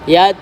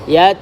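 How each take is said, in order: First: The final t has only slight breath. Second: The final t has only slight breath.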